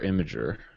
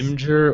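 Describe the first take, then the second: First: A vowel is heard between the m and g. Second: No vowel is heard between the m and g. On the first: The speaker calls it wrong. "if you guys want to say it wrong" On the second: The speaker calls it right. "there's no vowel in between that"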